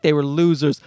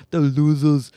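First: Said in the usual way. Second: Imitated Austrian accent; Schwarzenegger. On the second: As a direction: echo it in a mock Austrian accent. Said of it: "It's just Schwarzenegger wanted to".

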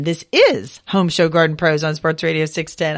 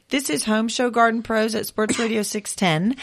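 First: Said in the usual way. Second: Rising at the end like a question, "six ten?". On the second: Real, not acted. Host unsure of station name, rising question tune. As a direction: let "six ten" lift up as if asking. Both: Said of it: "I was sort of saying that as a question".

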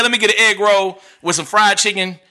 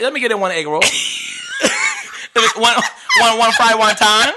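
First: Said in the usual way. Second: Choppy imitation Chinese-accented English; mock Chinese accent. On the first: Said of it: "order with my English voice". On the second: Shown as a demonstration. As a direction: order takeout in a put-on Chinese accent. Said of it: "order Chinese with the Chinese voice".

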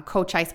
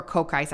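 First: "Cochise" with CH as in church. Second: "Cochise" with a hard K in the middle. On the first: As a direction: say "Cochise" as koh-CHICE. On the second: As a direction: say "Cochise" as koh-KICE. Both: Real, not acted. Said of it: "I don't know how you say it".

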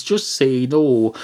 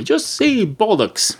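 First: Slow, deliberate slogan read; mock public-service slogan. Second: Just say bollocks, slow and much higher, punching just; triumphant mock slogan. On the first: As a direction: spell out just say no like an anti-drug ad. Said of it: "they say drugs". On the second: Shown as a demonstration. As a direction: sell it like a campaign slogan. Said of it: "far more effective to say".

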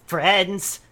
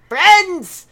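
First: Said in the usual way. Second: Friends called high and loud; loud proclaiming. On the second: Acted. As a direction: Friends shouted out like a herald. Calling out louder, take two.

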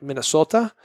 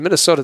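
First: Attempted Minnesota accent. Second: Said in the usual way. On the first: Host fumbling at how locals say it, mock Minnesota accent. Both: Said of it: "they do got an accent".

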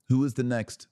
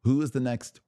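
The two takes are said the same way.

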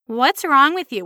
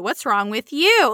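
First: WRONG stressed in the question; imitated prying question, emphasis on WRONG; question as asked. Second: Slow retort with YOU stressed; drawn-out emphasis on YOU; question thrown back. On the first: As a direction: ask it pointedly, hitting WRONG. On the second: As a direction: turn it round, leaning hard on YOU. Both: Shown as a demonstration. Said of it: "just asking the question back".

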